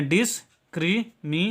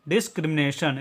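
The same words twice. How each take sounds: First: discrimination broken into dis, kri, mi, ne, san; syllable by syllable. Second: Said in the usual way. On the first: Shown as a demonstration. Teacher showing learners how to read a long word, discrimination split syllable by syllable. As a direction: say discrimination in separate parts with pauses. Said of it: "इसको पढ़ेंगे". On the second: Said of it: "इसका उच्चारण होगा discrimination".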